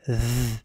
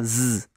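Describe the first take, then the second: First: It is a th-like sound, tongue between teeth. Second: It is a plain z, tongue behind teeth. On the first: The speaker calls it right. "il faut coincer la langue entre les dents" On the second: The speaker calls it wrong. "C'est pas Z"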